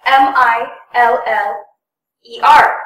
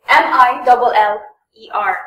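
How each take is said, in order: First: M I L L E R spelled out one letter at a time; letters spelled out singly, slow and clear. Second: M I double L E R spelled saying double for the two L's. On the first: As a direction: spell each L separately. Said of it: "some people would spell it out as". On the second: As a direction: say double L instead of L L. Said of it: "But for double, they say". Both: Shown as a demonstration.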